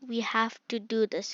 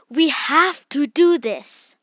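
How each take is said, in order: First: It is said flatly, without vocal variation. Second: It is said emphatically, with varied pitch and volume. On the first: The speaker calls it wrong. "Instead of this" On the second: The speaker calls it right. "you're really showing that this is really important"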